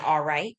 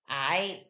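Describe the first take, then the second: First: It is said in full with two syllables. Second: It is clipped into one short syllable. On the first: It is the standard form. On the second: It is the casual dialect form.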